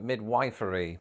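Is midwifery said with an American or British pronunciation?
American. It is said with an American pronunciation. "Just not quite serious enough to call it midwifery"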